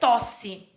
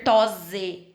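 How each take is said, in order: First: The middle consonant is a hissing S sound. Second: The middle consonant is a buzzing Z sound. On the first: This is how a double-S spelling is read. "no meio eu preciso dar o som de C" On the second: This is how a single-S spelling would be read. "um S só, som de Z"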